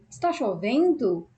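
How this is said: It is said with a doubtful questioning tune.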